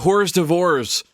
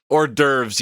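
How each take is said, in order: First: Every letter is sounded out as in English. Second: It is said the French way, silent letters dropped. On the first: The speaker calls it wrong. "I read very literally" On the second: The speaker calls it right. "yes, yes, yes, yes. French"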